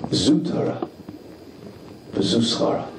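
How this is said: It sounds like an appreciative, accepting affirmation. The challenge itself is the true reward of learning. The speaker calls it right. "You have to change the inflection"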